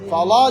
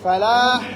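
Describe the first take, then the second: First: The L is heavy and dark. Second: The L is light and clear. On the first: "ফালা যদি হয়ে যায় তাহলে মোটা" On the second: "আর যদি ফালাহ আসে পাতলা"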